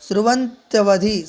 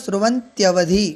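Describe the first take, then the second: No difference in how they are said.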